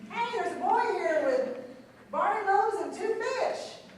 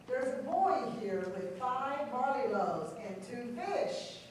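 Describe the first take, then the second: First: It is said with lively enthusiasm. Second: It is read in a plain, neutral tone.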